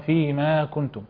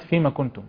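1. حركة 'ma' ممدودة طويلة. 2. حركة 'ma' قصيرة.

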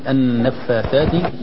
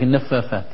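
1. الحرف الأوسط صوت th. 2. الحرف الأوسط صوت f. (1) "النفاثات والفاء بهمسها ... وبعدها كذلك الثاء" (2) "لا يفرق ما بين الفاء والثاء ... يقول لك النفافات"

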